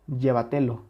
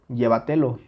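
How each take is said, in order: First: The first syllable lacks its strong stress. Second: The first syllable lacks its strong stress.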